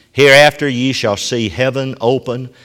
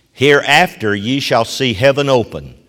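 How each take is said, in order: The two takes are said the same way.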